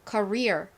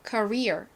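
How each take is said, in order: Both takes have the same delivery.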